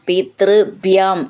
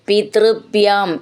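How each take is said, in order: The two takes are said the same way.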